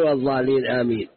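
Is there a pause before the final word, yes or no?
no. Amen is joined straight on without a pause. Amen sounds like part of the recited chapter. The speaker calls it wrong. "لا تشبكها مع الفاتحة"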